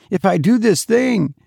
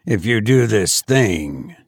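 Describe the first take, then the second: First: High, frightened start that breaks off; begin, then falter in dread; terrified hesitation. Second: Said in the usual way. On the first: A narrator's reading. Terrified man weighs deadly task.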